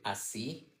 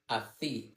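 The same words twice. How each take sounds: First: The middle consonant is a plain 's' sound. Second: The middle consonant is a lisped 'th' sound.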